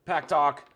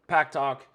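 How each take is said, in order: Both takes have the same delivery.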